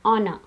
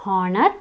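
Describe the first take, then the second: First: Honor starting on the vowel; silent H. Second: Honor with a breath of H at the start; H wrongly sounded. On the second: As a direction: say honor as HOR-ner. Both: Shown as a demonstration. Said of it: "It's not honor".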